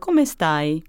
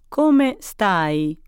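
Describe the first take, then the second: First: It is spoken at a natural, faster pace. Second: It is spoken very slowly. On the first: "The next time we'll do it at a more natural pace" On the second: "The first time we'll do it extra slowly"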